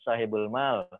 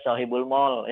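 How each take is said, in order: First: The last word does not sound like 'mall'. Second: The last word sounds like English 'mall'. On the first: The speaker calls it right. "tapi sebetulnya bacanya mal" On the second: The speaker calls it wrong. "Orang sering salah baca, bacanya sohibul mall, ya, karena kebiasaan ke mall"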